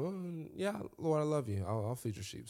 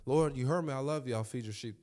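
First: Lightly voiced Peter, easy and offhand; casual first answer. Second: A hint of irritation, insisting; mildly annoyed repeat; slightly impatient Peter. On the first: Peter answering Jesus the first time, offhand and easy. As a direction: shrug it off casually. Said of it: "the first time". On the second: Peter answering Jesus a second time, a touch impatient. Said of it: "Second time".

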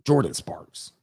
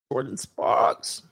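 First: Said in the usual way. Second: Whispered slow name. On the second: Shown as a demonstration. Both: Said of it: "You said [name]?".

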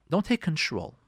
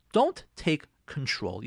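First: Said in the usual way. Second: Slow, spaced-out "Don't take control"; emphatic warning. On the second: Real, not acted. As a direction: give each word of "Don't take control" its own weight. Teacher repeats warning for emphasis.

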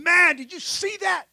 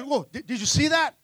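First: Higher-pitched, amazed disciple's exclamation; pumped up. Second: Stammered, lightly acted alarm; freaking out. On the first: Acted. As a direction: act out a thrilled disciple who just saw a miracle. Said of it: "those disciples are pumped up". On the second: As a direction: play a spooked disciple, tripping on the words. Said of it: "to freaking out".

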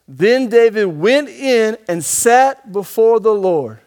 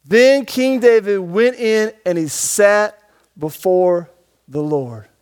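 First: Preacher reading the verse slowly, weight on sat; slow emphatic reading. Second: Slow deliberate reread, voice dropping at the Lord; reread slower. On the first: Preacher reading verse to the congregation, slow and emphatic. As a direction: read it slow, leaning on sat. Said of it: "Stop, read it". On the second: Preacher rereading the verse to the congregation, slower and falling. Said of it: "Read it again". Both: Shown as a demonstration.

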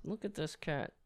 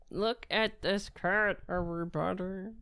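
First: Soft cat voice. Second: Slow, doting, drawn out; drawn-out cat talk. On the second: Man showing his cat to viewers, slow doting coo. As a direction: stretch it out like cooing at a pet. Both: Real, not acted. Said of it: "Why am I talking like that?".

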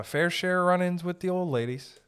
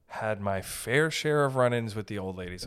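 First: High, raised voice; high-pitched. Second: Said in the usual way. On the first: Real, not acted. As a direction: pitch the whole sentence up high. High take, then usual voice.

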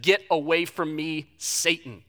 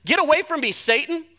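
First: Stern Jesus. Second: Forceful rebuke. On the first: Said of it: "Jesus turned to Peter and he said". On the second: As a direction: throw "Get away from me, Satan" out hard. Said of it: "this is his friend". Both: Retold or imitated.

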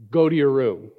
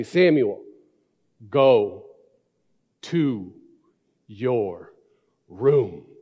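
First: Said in the usual way. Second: Each word spaced out, low and firm; slow dad voice. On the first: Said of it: "that dad voice". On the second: Retold or imitated. Father sending his son to his room, slow and firm. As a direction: lay down the law one word at a time. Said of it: "You know that dad voice, the slow".

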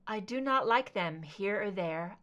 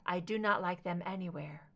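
First: Said in the usual way. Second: Hushed whisper on anywhere. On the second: A narrator's reading. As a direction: whisper the rhyme, barely voiced. Recalling the rhyme from her journal.

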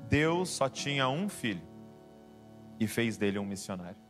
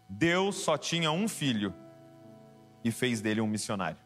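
Both takes have the same delivery.

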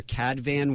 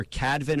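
First: "Cadvan" said as CAD-van; full second vowel. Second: "Cadvan" said as CAD-vin; reduced second vowel. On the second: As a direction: say "Cadvan" with a short, weak ending, like "CAD-vin". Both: Shown as a demonstration. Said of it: "the pronunciation of your last name".

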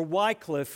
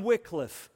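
First: "Wycliffe" said as WIKE-liff; first syllable of "Wycliffe" rhymes with "bike"; long-i pronunciation. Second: "Wycliffe" said as WICK-liff; short "i" in the first syllable of "Wycliffe"; short-i pronunciation. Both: Shown as a demonstration. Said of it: "if you prefer that pronunciation".

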